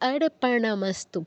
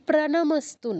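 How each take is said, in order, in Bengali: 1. র আসে প-এর আগে: arpanamastu। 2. র আসে প-এর পরে: pranamastu। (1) "পয়ের নিচে কোনো রফলা নেই" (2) "এটা কিন্তু প্রণামস্তু নয়"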